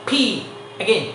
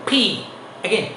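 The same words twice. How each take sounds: Both takes have the same delivery.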